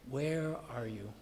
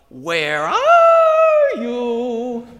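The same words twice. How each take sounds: First: The question sounds caring and concerned. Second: The question sounds casual and flippant. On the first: The asker genuinely cares about the other person. "Or more concern than judgment" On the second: The asker does not really care about the answer. "something more flippant like"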